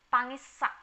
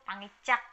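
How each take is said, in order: First: The middle consonant is an s sound. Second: The middle consonant is a ch sound. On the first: "N plus S sama dengan S S" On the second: "Di beberapa daerah bacanya justru pangicak"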